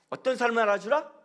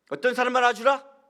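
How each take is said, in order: First: Said in the usual way. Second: Emphatic repeat. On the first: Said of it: "repeats the question louder". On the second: Shown as a demonstration. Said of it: "repeated question louder".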